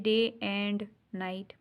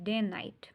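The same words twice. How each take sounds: First: The word 'and' is stressed and said fully. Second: The word 'and' is unstressed and reduced. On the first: The speaker calls it wrong. "अब हम ये नहीं कहते day एंड night" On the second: The speaker calls it right. "हम day और night पे stress करेंगे लेकिन एंड पे नहीं करेंगे"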